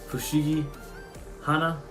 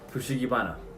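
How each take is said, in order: First: The second word begins with an h sound. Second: The second word begins with a b sound. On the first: The two words are still separate. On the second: The two words are combined into one name.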